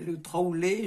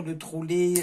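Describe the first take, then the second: First: Trolley à la méridionale, voyelle ouverte; trolley southern style. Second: Said in the usual way. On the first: Shown as a demonstration. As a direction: give trolley a southern French twist. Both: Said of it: "moi avec mon accent du midi".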